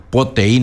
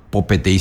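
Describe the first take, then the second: First: "po T I" with the first syllable pe dropped; shortened "po T I"; contracted form. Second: Full "po P T I", petei left whole after po; "po P T I" with no syllable dropped; full uncontracted form. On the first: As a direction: run "po" straight into "T I", leaving out pe. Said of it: "sino po T I nomás". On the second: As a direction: say all of "P T I" after "po". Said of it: "No digo po P T I, sino". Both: Shown as a demonstration.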